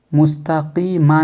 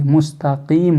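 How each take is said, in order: First: मुस्तकीमा with final "maa" voiced; unstopped ending. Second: मुस्तकीम closing on "m"; vowelless final meem. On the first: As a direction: add an open vowel after the m in मुस्तकीमा. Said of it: "नहीं पढ़ेंगे". (मुस्तकीमा के आख़िर में "मा" बोलकर) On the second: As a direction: shut the end of मुस्तकीम on m, no vowel. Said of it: "मीम को साकिन कर दीजिए". (मुस्तकीम का "म" साकिन) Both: Shown as a demonstration.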